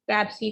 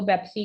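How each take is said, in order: First: The word begins with a p sound. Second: The word begins with a b sound.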